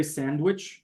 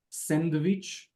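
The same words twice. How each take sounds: First: Said in the usual way. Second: "sandwich" said as "sendvitch", with a v; Hebrew pronunciation. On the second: Shown as a demonstration. Teacher showing students how Hebrew speakers say it, Hebrew pronunciation. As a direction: say "sandwich" the Israeli way, "SEN-de-vitch". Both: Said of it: "In Hebrew, it will sound".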